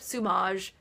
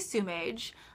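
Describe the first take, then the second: First: The word is said in a posh-sounding way. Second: The word sounds almost like 'sewage'. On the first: The speaker calls it wrong. "that just sounds hoity-toity" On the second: The speaker calls it right. "it sounds almost, but not quite, like sewage"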